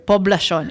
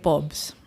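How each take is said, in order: First: The word is said in full, every syllable. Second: The word is clipped to one short syllable. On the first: The speaker calls it right. "just say the whole word" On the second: The speaker calls it wrong. "Don't like I I- like pobs"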